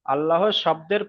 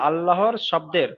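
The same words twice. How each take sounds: The two takes are said the same way.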